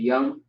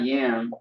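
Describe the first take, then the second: First: The vowel sounds like the one in cup. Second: The vowel sounds like the one in cat. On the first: The speaker calls it right. "but yum" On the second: The speaker calls it wrong. "not yam"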